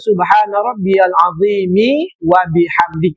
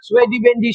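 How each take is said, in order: First: It is recited calmly, word by word. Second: It is recited hurriedly, words run together.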